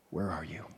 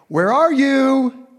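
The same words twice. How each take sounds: First: Lower, whispered, gentle call; tender whisper. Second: High, slow, loud sing-song call across the garden; playful calling out. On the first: God seeking his children, tender whispered call. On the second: God calling playfully to Adam and Eve, high loud call. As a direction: call out like a father playing hide and seek. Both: Acted.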